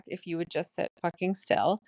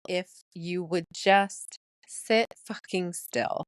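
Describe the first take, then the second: First: Said in the usual way. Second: Slow, deliberate, partly whispered; hushed title reveal. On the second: Shown as a demonstration. Podcaster revealing her album title to listeners, slow and hushed. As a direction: draw it out, slipping into a whisper.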